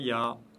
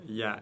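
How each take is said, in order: First: The syllable is pronounced heavy and full. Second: The syllable is pronounced light and thin. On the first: The speaker calls it wrong. "et non pas" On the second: The speaker calls it right. "prononcé légèrement"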